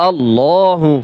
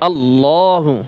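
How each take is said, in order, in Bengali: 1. দুই L উচ্চারিত হয় মোটা ও ভারীভাবে। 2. দুই L উচ্চারিত হয় মোটা ও ভারীভাবে।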